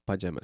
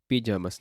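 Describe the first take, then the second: First: The word is pronounced the English way. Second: The word is pronounced the Spanish way. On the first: "not pajamas" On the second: "in Spanish we say pajamas"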